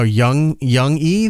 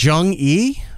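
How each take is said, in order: First: The name begins with a Y sound. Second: The name begins with a J sound. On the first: The speaker calls it right. "If it starts with a J, it's most likely Young" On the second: The speaker calls it wrong. "if I'm pronouncing that right"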